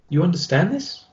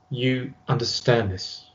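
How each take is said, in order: First: The pitch rises at the end. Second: The pitch falls at the end. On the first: It sounds like a question being asked. "using an uptone will have a slight inflection towards the end of the sentence" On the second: It sounds like a command. "your voice goes down into what we call more of a command tonality"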